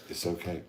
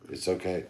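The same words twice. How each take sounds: First: "It's okay" repeated more quietly; gentle soft "It's okay" to the listeners; softer reassurance. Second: Said in the usual way. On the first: Real, not acted. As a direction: ease off and say "It's okay" softly, comforting. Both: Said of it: "reassuring listeners".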